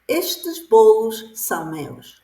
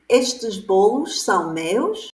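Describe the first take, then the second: First: It is said with statement intonation. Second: It is said with question intonation. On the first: It states that the cakes belong to the speaker. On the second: It asks whether the cakes belong to the speaker.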